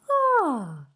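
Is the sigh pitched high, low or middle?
high. The sigh is pitched high. "and higher"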